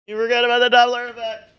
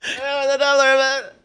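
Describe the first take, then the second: First: High and loud fly-by shout; passing by doppler. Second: Faster fly-by, pitch falling away; passing by doppler. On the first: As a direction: whoosh past with a falling pitch. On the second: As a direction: rush past and fade the pitch down. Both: Pretend.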